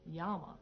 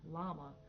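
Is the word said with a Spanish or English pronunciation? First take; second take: Spanish; English. First: It begins with a Y sound, Spanish style. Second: It begins with an L sound, English style.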